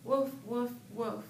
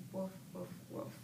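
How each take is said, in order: First: Barking woof woof, louder. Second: Soft, hushed woof woof; whispered bark. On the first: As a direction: bark it out like a noisy dog. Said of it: "He's barking so loud". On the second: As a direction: bark as if the baby is sleeping. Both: Shown as a demonstration.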